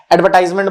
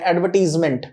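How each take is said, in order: First: "एडवर्टाइजमेंट" with TIZE, as ad-ver-TIZE-ment; common mispronunciation. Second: "एडवर्टीजमेंट" with TEEZ, not tize; corrected pronunciation. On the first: Teacher showing what many people say, mispronounced ad-ver-tize-ment. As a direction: say "एडवर्टाइजमेंट" with an "eye" vowel in the third syllable. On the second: Teacher correcting a common slip, said ad-ver-teez-ment. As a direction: say "एडवर्टीजमेंट" with a short eye-less "tiz" sound. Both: Shown as a demonstration. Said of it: "बहुत लोग बोल देते हैं".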